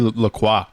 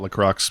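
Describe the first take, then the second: First: The name is pronounced the French way. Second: The name is pronounced the English way. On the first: This is the technically correct form. The speaker calls it right. "I think it's technically La Croix. It's French" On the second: This is a casual, uncultured habit. The speaker calls it wrong. "I call it La Croix because I'm, in, I'm a fucking savage"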